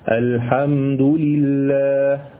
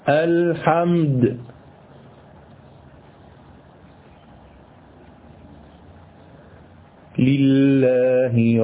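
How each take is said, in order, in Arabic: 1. الكلمتان متصلتان، والوقف بعدهما فقط. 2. يوجد وقف بين الكلمتين. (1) "هذا الوقف يسمى وقفا حسنا، يعني أقف هكذا" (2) "تعالوا بقى نشوف الوقف القبيح"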